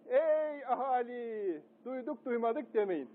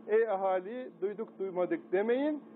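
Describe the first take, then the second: First: High, slow drawn-out proclamation; town crier. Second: Barely raised crier call; a hint of the town crier, near plain; lightly voiced town crier. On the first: Pretend. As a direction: call out to the whole square like a crier. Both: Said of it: "Ben şimdi dellal oldum".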